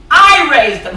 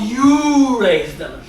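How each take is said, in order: First: "I" hit hard and louder; stress on I. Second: "you" hit hard, slow accusing; stress on you. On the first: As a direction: lean on "I" as the one who suffers. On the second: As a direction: lean on "you" to point at him. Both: Acted. Wife contrasts you and I.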